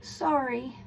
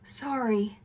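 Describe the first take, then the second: First: "Sorry" tossed off while turned away, higher and uncaring; cold-shoulder sorry. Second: "Sorry" said facing them, gentle, falling and meant; sincere sorry. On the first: Teacher showing students the wrong way to apologize, cold and dismissive. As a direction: say it over your shoulder without meaning it. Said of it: "you don't wanna just say it". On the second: Teacher showing students the right way to apologize, sincere and gentle. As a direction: turn to them and mean every bit of it. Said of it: "You wanna turn in their direction and say it". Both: Shown as a demonstration.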